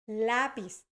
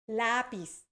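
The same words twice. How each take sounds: Both takes have the same delivery.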